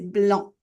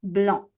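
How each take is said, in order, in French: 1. Le C final est muet. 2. Le C final est muet.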